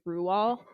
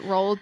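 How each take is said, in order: First: The name is said the original Norwegian way. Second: The name is said the common American way. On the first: "because he's Norwegian, the pronunciation is technically Rual" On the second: "most Americans pronounce it Roald"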